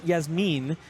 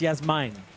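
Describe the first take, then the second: First: The last syllable has a short 'i' vowel. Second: The last syllable has an 'eye' vowel. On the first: The speaker calls it wrong. "So it's not Yasmin" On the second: The speaker calls it right. "I J is an is an I sound for us Americans"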